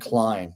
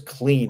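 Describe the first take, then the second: First: The name's vowel sounds like 'eye'. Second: The name's vowel sounds like 'ee'. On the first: The speaker calls it wrong. "people are giving me crap for it this morning um, because I said Klein" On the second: The speaker calls it right. "it's Lewis Clean apparently"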